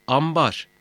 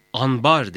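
First: "ambar" with m before the b; assimilated M sound. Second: "Anbar" with n before the b; wrong N sound. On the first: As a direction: say "ambar" with m, not n. ("ambar", m sesiyle) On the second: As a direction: say "Anbar" with a clear n. ("Anbar", n sesiyle) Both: Shown as a demonstration. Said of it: "Anbar değil, ambar".

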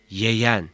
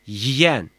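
First: "yeyen" with e in the first syllable; unnarrowed E vowel. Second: "yiyen" with i in the first syllable; narrowed vowel. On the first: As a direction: keep the e open in "yeyen". ("yeyen", açık e ile) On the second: ("yiyen", daralmış i ile) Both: Shown as a demonstration. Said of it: "Y harfinin daraltıcı etkisi".

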